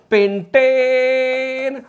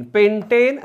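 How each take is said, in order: First: Chanted, long held final vowel in pentane, higher pitch; chanted, stretch pentane out on one high note; sustained classroom chant; drawn-out chant. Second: Said in the usual way. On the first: Shown as a demonstration. Teacher chants list of alkanes.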